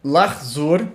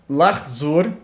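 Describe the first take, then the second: First: The middle half vowel is dropped, giving two syllables. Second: The middle half vowel is dropped, giving two syllables.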